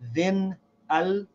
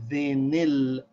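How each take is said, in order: First: The n and the al are not joined. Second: The n takes an i vowel into the l. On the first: The speaker calls it wrong. "Instead of saying then al" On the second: The speaker calls it right. "we give the noon of the tanween a kasra. We say thenil"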